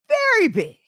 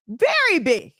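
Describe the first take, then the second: First: "Very big" lifted high, VERY stressed; higher emphatic repeat. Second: Said in the usual way. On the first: Shown as a demonstration. Repeating that men gossip, higher and stressed. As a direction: push "Very big" up higher the second time.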